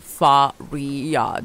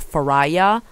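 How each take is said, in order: First: The name is said with its native Portuguese pronunciation. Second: The name is said with an English-speaking mispronunciation. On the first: This is the name's real pronunciation. The speaker calls it right. "it's it's Faria" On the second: This is how others mangled the name. The speaker calls it wrong. "They would call me"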